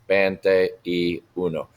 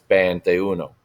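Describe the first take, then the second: First: It is said slowly with every word clear. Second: It is said quickly with the words run together.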